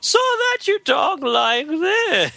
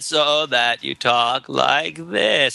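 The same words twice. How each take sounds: First: Throat is tight and the pitch moves melodically. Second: Throat is tight and the pitch stays flat.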